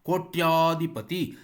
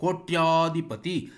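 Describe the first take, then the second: First: The vowel after 'koty' is long. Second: The same.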